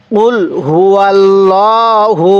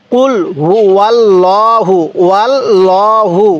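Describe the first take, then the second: First: কুল হু আল্লাহু recited slowly with a clear break after হু; slow recitation of কুল হু আল্লাহু, হু kept separate; correct Quran reading. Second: কুল হু আল্লাহু read slowly as ওয়াল্লাহু, with a w glide joining হু to আল্লাহু; slow demo of the mistaken ওয়াল্লাহু; wrong recitation. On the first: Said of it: "দেখুন এখানে কিন্তু কি লেখা আছে". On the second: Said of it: "এই ভুলটা কখনো করবেন না". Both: Shown as a demonstration.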